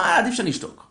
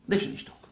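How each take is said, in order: First: Voiced thought, rising high then dropping; self-restraint. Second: Quiet, breath-only repeat; muttered to self. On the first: Father decides aloud to hold back. (איפוק מוצהר, בטון גבוה שיורד) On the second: Acted. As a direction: say it under your breath to yourself. Same thought repeated under the breath. (מלמול שקט לעצמו)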